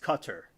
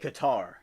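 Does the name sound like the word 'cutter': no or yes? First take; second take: yes; no. First: It is said like 'cutter'. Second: It is not said like 'cutter'. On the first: The speaker calls it right. "the pronunciation is Cutter" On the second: The speaker calls it wrong. "they said Qatar"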